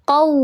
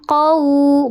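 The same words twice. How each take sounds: First: It ends on a firm w with tense lips. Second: It ends on a soft vowel u sound. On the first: The speaker calls it right. "tapi qau" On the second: The speaker calls it wrong. "bukan qau"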